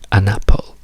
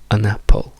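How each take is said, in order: First: The article is reduced to a schwa. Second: The same.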